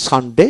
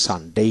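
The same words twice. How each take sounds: First: "সানডে" with a short final "de"; first of two pronunciations. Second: "সানডে" with a long "dei" ending; second of two pronunciations. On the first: Teacher repeating the contrast, short ending on "সানডে". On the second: Teacher repeating the contrast, drawn-out ending on "সানডে". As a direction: stretch the ending of "সানডে" into a glide. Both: Shown as a demonstration. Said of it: "দুটো উচ্চারণ হয়".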